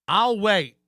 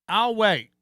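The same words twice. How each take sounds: Both takes have the same delivery.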